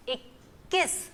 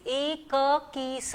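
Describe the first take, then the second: First: इक्कीस with the kk held, ik-kees; teacher shows the joined kk in इक्कीस; doubled k in इक्कीस. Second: एक की स said apart as three pieces; the wrong way, ek kee sa; wrong split. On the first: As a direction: hold the k before kees. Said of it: "तो बोलने में भी इक्कीस". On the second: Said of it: "ऐसे नहीं हम बोलते". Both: Shown as a demonstration.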